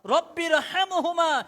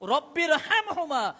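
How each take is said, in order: No difference in how they are said.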